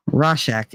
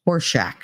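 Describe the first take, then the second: First: Rorschach said ROR-shack with an r, not horse; landing on Rorschach properly; Rorschach, first syllable ror not horse; corrected Rorschach. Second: Horseshack, said HORSE-shack like a horse's shack; stumbling into Horseshack; mispronounced Rorschach. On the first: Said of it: "Is it Rorschach?". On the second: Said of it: "I can't say that word". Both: Shown as a demonstration.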